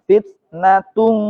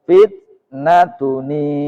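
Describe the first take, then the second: First: The word ends in a plain nasal sound. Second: The word ends with an added 'ni' syllable. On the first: The speaker calls it wrong. "fitnatung nggak bisa" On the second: The speaker calls it right. "Maka ditambahkanlah nun i iwat"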